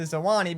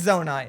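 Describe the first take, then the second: First: The name is said as 'Zo-ah-nee'. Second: The name is said as 'Zo-nye'. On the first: The speaker calls it wrong. "I mispronounced it the entire time as the Zoani" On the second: The speaker calls it right. "but it's Zonai"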